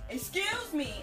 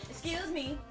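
First: It is said loudly. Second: It is said fairly quietly.

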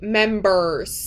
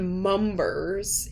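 First: The word is pronounced in the ordinary way. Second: The word is pronounced in an odd, garbled way. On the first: The speaker calls it right. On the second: The speaker calls it wrong. "I literally just said members"

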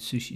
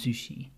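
First: The word begins with an S sound. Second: The word begins with a Z sound. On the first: "rather than sushi" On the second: "the S changes to a Z sound"

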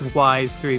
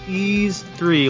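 First: The name sounds like the word 'wise'. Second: The name sounds like the word 'ease'. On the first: The speaker calls it wrong. "when I was a kid, it probably was Wise 3" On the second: The speaker calls it right. "it's Ease 3, like the mythical French city of Ease"

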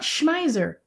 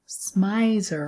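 First: The name is pronounced in a German style. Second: The name is pronounced in an English style. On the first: The speaker calls it wrong. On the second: The speaker calls it right.

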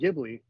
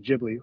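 First: It begins with a hard G sound. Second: It begins with a soft G sound. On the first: The speaker calls it wrong. "I always said it with a hard G" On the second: The speaker calls it right. "the correct pronunciation is Ghibli with the soft G"

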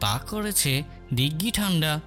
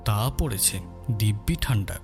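First: The p and b sounds become k and g. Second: The p and b sounds are said normally. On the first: "তাহলে সেটা বলতে হবে এইভাবে" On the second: "কথোপকথন যদি এই হয়"

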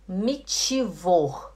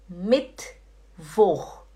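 First: An extra vowel is inserted after the t. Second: The t goes straight into the next sound. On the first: The speaker calls it wrong. "Eu vou falar errado" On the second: The speaker calls it right. "Agora eu vou falar certo"

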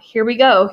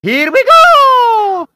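First: It is read plainly, as narration. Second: It is said in an exaggerated, excited impression.

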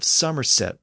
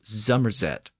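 First: The word begins with a voiceless S sound. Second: The word begins with a voiced Z sound. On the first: "the region of Somerset" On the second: "pronounced as Zummerzet"

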